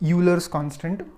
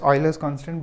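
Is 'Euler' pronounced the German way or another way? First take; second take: another way; German. First: The name is said in a non-German way. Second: The name is said the German way. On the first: This is how many people say the name. "some people call it as Euler's constant" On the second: This follows the scientist's German origin. "I call it as Euler's constant because this is a scientist from Germany"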